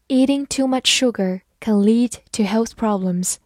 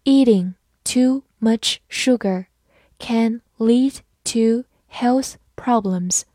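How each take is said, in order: First: Said in the usual way. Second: Slow, careful reading for learners; slow classroom model reading; slowly. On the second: Shown as a demonstration. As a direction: space the words out slowly. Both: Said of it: "好，慢慢来读。".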